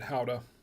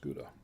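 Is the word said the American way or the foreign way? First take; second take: foreign; American. First: The word is said the way it's said abroad. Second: The word is said the usual American way. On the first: This is how it is said outside the US. "they do pronounce it Howda, but not here in the U S" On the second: This is how it is said in the US. "It's pronounced Gouda"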